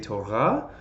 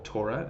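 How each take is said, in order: First: It is said with the Biblical Hebrew class pronunciation. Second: It is said with an everyday Yiddish-style pronunciation. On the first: This is the way used for studying the text. "for our purposes, we're going to say Torah" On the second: This is the everyday way people say it. "is how we sometimes say it. ... that's how you pronounce it in Yiddish too"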